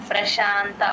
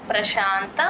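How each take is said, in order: The two takes are said the same way.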